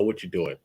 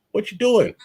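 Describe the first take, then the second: First: Said in the usual way. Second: Raised, disbelieving repeat; incredulous bro. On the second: Retold or imitated. Friend asking a buddy why he's dating her, high disbelief. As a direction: ask it again in higher disbelief. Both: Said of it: "I would tell somebody".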